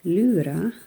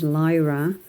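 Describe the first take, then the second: First: The name is said with a German pronunciation. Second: The name is said with an English pronunciation. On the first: "they would say uh, Lyra or something like that" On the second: "the Germans would, wouldn't pronounce it as Lyra"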